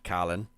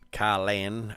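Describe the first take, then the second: First: The name is said quickly and compressed. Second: The name is said slowly and fully.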